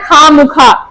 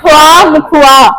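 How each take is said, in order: First: It is said 'kha mukha' without a w sound. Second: It is said 'khwa mukhwa' with a w sound. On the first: The speaker calls it wrong. "हम लोग बोलते सही नहीं है" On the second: The speaker calls it right. "Urdu में proper बोला जाता है"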